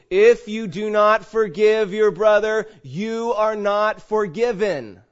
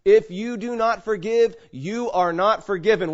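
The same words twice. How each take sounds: First: "if you do not forgive your brother" slow and loud, word by word; emphatic restatement. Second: Said in the usual way. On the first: Shown as a demonstration. Preacher joking about the Greek meaning, slow emphatic "not forgiven". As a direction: spell out "you are not forgiven" slowly, hammering each word.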